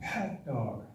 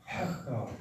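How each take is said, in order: First: It begins with a different, tighter throat sound. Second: It begins with a different, tighter throat sound.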